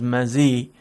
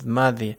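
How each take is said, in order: First: The middle consonant is a z sound. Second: The middle consonant is a th sound. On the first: The speaker calls it wrong. "Some people pronounce it wrongly as mazi" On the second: The speaker calls it right. "the true and the exact pronunciation is madhi"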